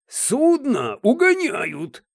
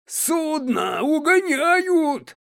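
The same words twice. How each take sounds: First: The phrase is spoken at a louder volume. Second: The phrase is shouted at full volume. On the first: "уже громче" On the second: "а затем вообще срывается на крик"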